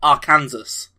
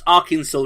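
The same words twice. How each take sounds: First: The ending sounds just like Kansas. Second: The ending does not sound like Kansas. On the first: The speaker calls it wrong. "which is literally Arkansas" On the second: The speaker calls it right. "pronounced Arkansas"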